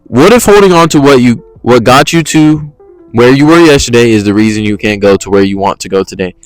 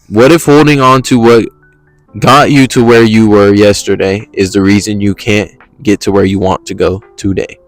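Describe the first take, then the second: First: It is read faster than before. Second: It is read slowly, letting it flow.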